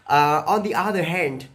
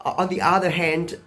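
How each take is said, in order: Both takes have the same delivery.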